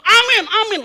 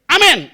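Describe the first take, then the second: First: Mock premature amens, high and loud; over-eager amen. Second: Mock amen, late and suddenly loud; delayed amen. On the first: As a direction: imitate jumping in with repeated loud, high amens. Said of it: "aminnya kecepetan juga jadi masalah". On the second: Preacher mimics middle-up congregation digesting first, delayed loud amen. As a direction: imitate a belated, high, loud amen. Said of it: "ngomong aminnya pelan dia".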